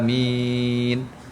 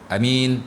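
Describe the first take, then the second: First: Both vowels are drawn out long. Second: The first vowel is short; the second is long. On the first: "baca panjang dua-dua" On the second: "min tu panjang, a tu pendek"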